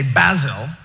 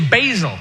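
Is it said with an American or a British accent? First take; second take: British; American. First: It is said in a British accent. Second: It is said in an American accent.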